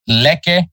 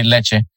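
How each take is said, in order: First: Lecce said 'LEK-keh', with a hard k; hard-k Lecce, 'LEK-eh'. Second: Lecce said 'LET-cheh', with a ch sound; Italian Lecce, 'LET-cheh'. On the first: Podcaster reads the team list, saying Lecce with a hard k. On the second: Podcaster corrects himself, saying Lecce with ch. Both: Shown as a demonstration. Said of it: "I really wanna say Lecce".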